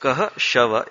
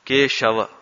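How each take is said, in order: First: "कह", a short break, then "शव"; word split apart. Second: Said in the usual way. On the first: Shown as a demonstration. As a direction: break the name into "कह" and "शव". ("कह" और "शव" के बीच हल्का विराम) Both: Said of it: "Keshav का विच्छेद करें".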